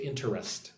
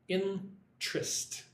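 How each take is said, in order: First: The word is said with three syllables. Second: The word is said with two syllables. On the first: "I do not say interest" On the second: "I say it like two syllables"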